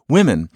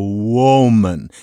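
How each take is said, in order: First: The first vowel is unrounded, like in women. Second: The first vowel is rounded after the w. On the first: This is the older singular form. "The word originally was, even in the singular, women" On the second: This is the later singular form. "that same round, balloony sound"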